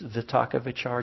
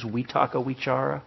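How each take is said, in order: First: The V letters are pronounced as V sounds. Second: The V letters are pronounced as W sounds. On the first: This is how the speaker personally says it. "I pronounce them as V's" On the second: This is how Burmese speakers say it. "They pronounce the V's as W's"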